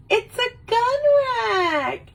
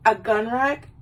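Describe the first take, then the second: First: Very high, thrilled squeal; high-pitched mock excitement; stoked ex-girlfriend. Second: Puzzled, rising mock disbelief; underwhelmed boyfriend querying the gift; baffled question. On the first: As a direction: squeal it with over-the-top delight. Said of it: "She was, like, so stoked about it". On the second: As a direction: ask it doubtfully, lifting the end.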